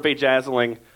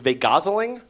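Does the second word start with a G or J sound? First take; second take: J; G. First: The second word starts with a J sound. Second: The second word starts with a G sound.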